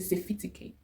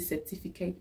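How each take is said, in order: First: The f and t sounds are swapped. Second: The f and t sounds are in normal order. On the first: "We kind of interchange the fee and the T" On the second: "we don't say certificate"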